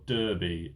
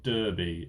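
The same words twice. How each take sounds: First: It is pronounced the American way. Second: The same.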